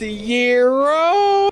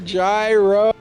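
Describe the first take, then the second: First: The word sounds like the word 'Euro'. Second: The word is said in the common everyday way. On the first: "although it's technically pronounced Euro" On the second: "He's gonna get a gyro"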